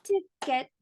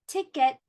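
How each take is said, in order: First: "Ticket" split into tick, et, pitched higher; clapped-out syllables. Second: Said in the usual way. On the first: Shown as a demonstration. Teacher asks how many claps, "Ticket" in two beats. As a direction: clap out both beats of "Ticket". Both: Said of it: "How many claps?".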